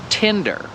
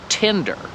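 First: It is said with an English vowel sound. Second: The same.

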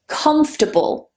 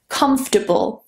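Both takes have the same delivery.

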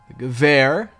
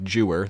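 First: The word begins with a hard G sound. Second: The word begins with a J sound. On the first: The speaker calls it right. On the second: The speaker calls it wrong.

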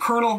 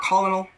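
First: It sounds like kernel, with two syllables. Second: It has three syllables, col-o-nel. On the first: The speaker calls it right. "it's pronounced colonel" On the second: The speaker calls it wrong. "not colonel. Because, I mean, it's spelled that way, right?"

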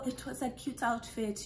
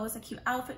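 First: It is said in an imitated Nigerian accent. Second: It is said in the speaker's own accent.

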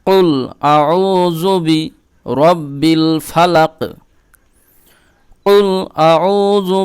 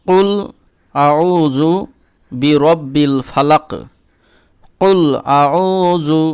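No difference in how they are said.

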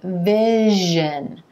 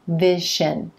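First: The middle consonant is a voiced zh. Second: The middle consonant is a voiceless sh. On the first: The speaker calls it right. "You want to make sure you're saying vision" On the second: The speaker calls it wrong. "not vision"

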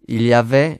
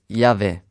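First: Every syllable is pronounced in full. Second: Sounds are dropped and run together.

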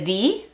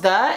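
First: The vowel is a long ee sound. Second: The vowel is a short reduced uh sound. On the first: "en vez de the" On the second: "¿Por qué decimos the en vez de the?"

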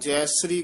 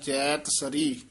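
First: No t sound comes before 'sari'. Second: A clear t sound comes before 'sari'. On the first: The speaker calls it wrong. "ਤੱਤਾ ਨਹੀਂ ਬੋਲਦੇ" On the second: The speaker calls it right. "ਸ਼ੁੱਧ ਉਚਾਰਨ ਕਰਨਾ ਹੈ"

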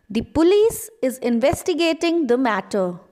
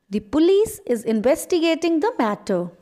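Both takes have the same delivery.

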